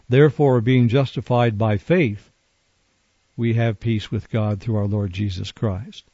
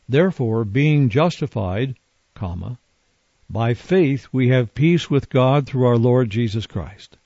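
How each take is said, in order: First: The pause comes after the word faith. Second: The pause comes after the word justified.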